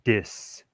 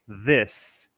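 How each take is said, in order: First: The word begins with a hard d sound. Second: The word begins with a soft th sound. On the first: This is what actually comes out in the local accent. "but he shall say dis" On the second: This is what the speaker intends to say. "a New Yorker thinks to say this"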